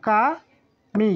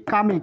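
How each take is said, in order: First: কামি very slowly, "ka", pause, "mi"; syllable-by-syllable pronunciation. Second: Said in the usual way. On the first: Shown as a demonstration. Teacher repeats the pronunciation for learners, slowly by syllable. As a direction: break কামি into two widely spaced syllables. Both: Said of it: "আরেকবার উচ্চারণ করে দেই".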